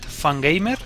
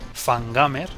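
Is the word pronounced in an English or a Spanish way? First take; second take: English; Spanish. First: The word is pronounced with English sounds. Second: The word is pronounced with Spanish sounds.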